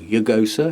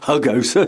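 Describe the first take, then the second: First: It begins with a Y sound. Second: It begins with an H sound. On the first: The speaker calls it wrong. "or Yugosa if you're Spanish" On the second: The speaker calls it right. "Hugosa, sorry"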